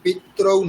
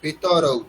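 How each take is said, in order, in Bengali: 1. 't' ও 'r' কোনো স্বরধ্বনি ছাড়াই যুক্ত। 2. 't' ও 'r'-এর মাঝে একটি স্বরধ্বনি উচ্চারিত হয়। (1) "পিত্রৌ নয়" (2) "এটা পিতরৌ।"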